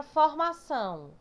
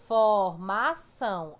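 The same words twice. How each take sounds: First: Said in the usual way. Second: "Formação" slow and loud, syllable by syllable; split into syllables. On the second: Shown as a demonstration. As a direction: break "Formação" into for-ma-ção, last syllable strong. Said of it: "como é mais forte".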